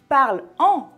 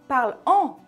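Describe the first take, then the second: The two takes are said the same way.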